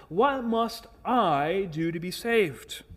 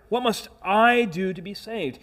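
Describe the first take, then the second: First: Said in the usual way. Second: "I" pushed up and leaned on hard; stress on I. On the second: Shown as a demonstration. Preacher to congregation, pointing out the jailer's stress on "I". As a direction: hit "I", not "what". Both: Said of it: "Notice that his emphasis is on "I".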